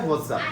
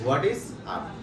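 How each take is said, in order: First: The words are run together into one. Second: Three separate words are said in full. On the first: "উচ্চারণটা হচ্ছে হোয়াটসঅ্যাপ" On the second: "হোয়াট ইজ আপ লিখেছি"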